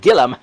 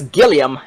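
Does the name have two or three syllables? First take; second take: two; three. First: The name is said with two syllables. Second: The name is said with three syllables. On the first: The speaker calls it wrong. "not Gillum" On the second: The speaker calls it right. "that's Gilliam"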